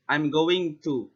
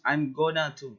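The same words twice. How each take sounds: First: Said in the usual way. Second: "gonna" run together as one word, Southern style. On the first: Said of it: "another example is". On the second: Shown as a demonstration. Student showing Southern speech, says "gonna" casually. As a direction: say "gonna" as in the South, not "going to". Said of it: "They will use".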